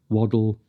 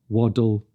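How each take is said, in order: The two takes are said the same way.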